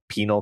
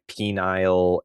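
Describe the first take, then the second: First: The second syllable is a weak 'nul'. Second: The second syllable sounds like 'nile'. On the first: The speaker calls it right. "you will never get it wrong again" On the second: The speaker calls it wrong. "you were you were like wandering between like penile"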